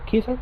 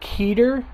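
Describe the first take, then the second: First: The name is said with its original pronunciation. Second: The name is said with an American pronunciation. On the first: This is closer to the company's actual name. The speaker calls it right. "but it's after actually like Keither" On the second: This is how people say it in the United States. The speaker calls it wrong. "you pronounce it Keter in the United States"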